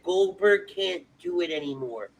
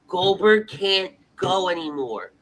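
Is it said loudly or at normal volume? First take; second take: normal volume; loudly. First: It is said at normal volume. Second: It is said loudly.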